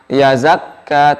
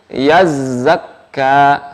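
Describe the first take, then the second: First: The z sound is short and single. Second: The z sound is pressed and doubled. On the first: The speaker calls it wrong. "Jangan yazakka" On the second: The speaker calls it right. "tapi yazzakka, Yaz langsung ditekan ke huruf za"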